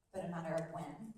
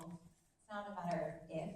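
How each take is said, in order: First: "when" landed deliberately after "matter of"; stress on WHEN. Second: "if" held back until the end of the line; stress on IF. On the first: Coach reminding the room about resolve, stress on WHEN. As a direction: make "when" the answer. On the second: Coach reminding the room about resolve, stress on IF. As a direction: point up "if" as the wrong option. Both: Shown as a demonstration. Repeats the if/when contrast for audience.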